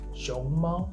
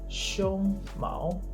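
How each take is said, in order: First: The first syllable rises, the second stays flat. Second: The first syllable stays flat, the second rises. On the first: It means panda. "熊, rising tone, 猫, the flat tone" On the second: It means chest hair. "the first is a flat tone and then the rising tone"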